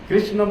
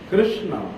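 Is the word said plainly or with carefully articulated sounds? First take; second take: plainly; carefully articulated. First: The word is said plainly and simply. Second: The word is said with carefully twisted articulation. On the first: It sounds too straightforward. The speaker calls it wrong. "बोल देने से तो बड़े सीधा लग जाता है" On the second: The name is as crooked as its bearer. The speaker calls it right. "ऐसे घुमा घुमा के बोलना पड़ता है"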